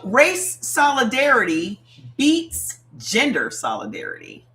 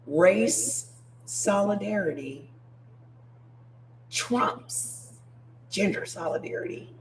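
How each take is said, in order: First: It is said at a normal pace. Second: It is said slowly.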